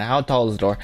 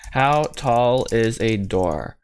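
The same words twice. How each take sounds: First: Said in the usual way. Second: HOW TALL IS A DOOR drawn out word by word; slow, spelled-out delivery of "How tall is a door"; slow, deliberate. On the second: Real, not acted. Repeats question slowly while searching.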